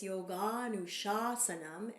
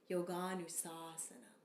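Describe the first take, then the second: First: Yoganushasanam said with a clear sh in the middle; correct sh sound. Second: Yoganusasanam said with a plain s instead of sh; wrong s sound. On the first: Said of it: "So with the accent". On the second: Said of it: "not Yoganusasanam". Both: Shown as a demonstration.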